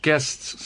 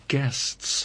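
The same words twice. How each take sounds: First: Said in the usual way. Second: Hushed insistence. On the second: Acted. Pointed repeat to the friend.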